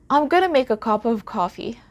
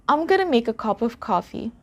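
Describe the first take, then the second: Both takes have the same delivery.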